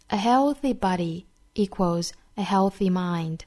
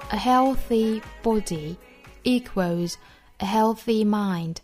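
First: It is read in an American accent. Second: It is read in a British accent.

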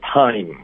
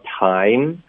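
First: The pitch falls on the word. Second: The pitch rises on the word. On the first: The speaker calls it right. "要降调" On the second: The speaker calls it wrong. "不要time, 不要以为就是疑问句是最后一个词是有往上飘的效果"

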